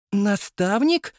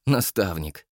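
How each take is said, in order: First: High, slow rising question; astonished young woman asking; surprised. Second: Said in the usual way. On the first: Acted. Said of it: "удивилась Мила".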